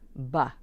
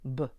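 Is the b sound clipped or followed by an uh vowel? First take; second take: uh vowel; clipped. First: The b is followed by an uh vowel. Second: The b is short with no vowel after. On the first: The speaker calls it wrong. "We're adding a vowel" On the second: The speaker calls it right. "nice and crisp"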